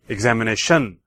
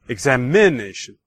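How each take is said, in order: First: The stress falls on the fifth syllable, 'tion'. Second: The stress falls on the third syllable, 'i'. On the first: "And fifth"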